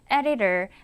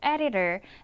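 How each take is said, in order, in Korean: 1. 중간 자음은 l처럼 부드러운 플랩 소리입니다. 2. 중간 자음은 선명한 t 소리입니다. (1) "거의 리을 발음으로 소리가 나기 때문이에요" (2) "editor라고 하지 않고"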